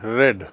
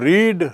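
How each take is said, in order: First: The vowel is short, like 'red'. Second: The vowel is long, like 'reed'. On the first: It is the past tense form of the verb. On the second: It is the base form of the verb.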